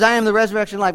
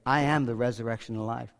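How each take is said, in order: First: Said in the usual way. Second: "I am the resurrection and life" said softer and lower, almost to himself; a hushed, inward first reading; soft quote. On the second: Acted. Quoting Jesus at the tomb.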